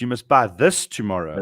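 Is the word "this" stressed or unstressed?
stressed. The word this is stressed.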